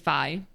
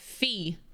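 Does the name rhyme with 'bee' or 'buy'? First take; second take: buy; bee. First: The vowel sounds like 'i' in 'hi'. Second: The vowel sounds like 'ee' in 'see'. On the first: The speaker calls it right. "It's actually Fi" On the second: The speaker calls it wrong. "Some of y'all call Fi Fee"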